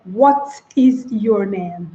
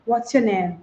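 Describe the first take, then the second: First: "What is your name" slow and separated; slow textbook "What is your name", every word stressed; stilted, word-by-word question. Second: "What's your name" run together softly, falling; crisp, smooth "What's your name" with a falling end; smooth casual tone. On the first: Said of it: "you don't say". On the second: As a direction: softly link "What's your name" in one easy flow. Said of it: "There's a tone that you have to use". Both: Shown as a demonstration.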